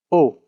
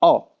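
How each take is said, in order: First: O said as English "oh"; English letter name. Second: O said as a pure, open "o"; Japanese vowel. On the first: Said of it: "That is the". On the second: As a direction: say O the Japanese way, with no glide into "oo". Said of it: "is pronounced". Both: Shown as a demonstration.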